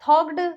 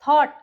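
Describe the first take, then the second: First: The gh is sounded as a 'g' before the end. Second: The gh is silent, giving a plain 't' ending. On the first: The speaker calls it wrong. "ऐसे नहीं बोलेंगे" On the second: The speaker calls it right. "तो यहाँ पे ये word हो गया silent"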